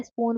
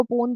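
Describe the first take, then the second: First: Said in the usual way. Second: पून with the S of spoon dropped; child's cluster reduction. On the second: Retold or imitated. Lecturer shows a child reducing clusters, पून without initial S. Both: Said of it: "स्पून को पून बोल रहा है".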